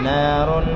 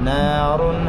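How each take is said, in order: Both takes have the same delivery.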